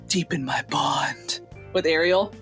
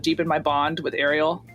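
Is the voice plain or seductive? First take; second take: seductive; plain. First: It is said in a sultry, seductive voice. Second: It is said in a plain, ordinary voice.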